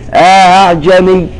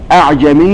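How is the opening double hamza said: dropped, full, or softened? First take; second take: softened; dropped. First: The second hamza is softened after a short alif. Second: The first hamza is dropped, leaving one hamza. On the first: "يقرأ بالتسهيل وله إدخال، يثبت ألفا بمقدار حركتين فقط" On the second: "أسقطن لتسهل"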